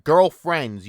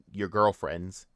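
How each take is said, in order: First: Put-on girlfriends said louder as a sarcastic keyword; stress on girlfriends. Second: Said in the usual way. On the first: Shown as a demonstration. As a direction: hit girlfriends hard like a quoted keyword.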